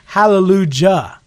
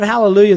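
First: The last part has a hard J sound. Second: The last part has a Y sound. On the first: "he would pronounce the J" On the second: "instead of Hallelujah"

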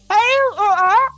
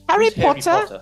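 First: It is said in a British accent. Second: It is said in a plain American accent.

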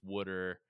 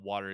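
First: It is said in a Philadelphia accent. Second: It is said in a standard accent.

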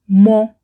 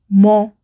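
First: The word has its pronunciation used before nouns. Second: The same.

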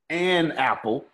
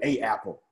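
First: The article is said with an n sound. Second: The article is said without an n sound. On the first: The speaker calls it right. "because it rolls off your tongue better" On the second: The speaker calls it wrong. "we don't say a apple"

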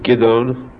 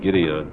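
First: The name is given a Hebrew pronunciation. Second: The name is given an English pronunciation. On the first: "His Hebrew name is Gideon" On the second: "I believe in English they pronounce it Gideon"

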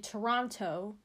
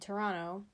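First: The second T is clearly pronounced. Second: The second T is dropped. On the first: "I don't say Toronto" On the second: "I say Toronto. I don't really say the second T"

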